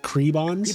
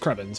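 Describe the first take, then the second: First: The name is said with a long 'ee' vowel. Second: The name is said without a long 'ee' vowel. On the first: The speaker calls it wrong. "as though it had two e's" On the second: The speaker calls it right. "I know is Krebens"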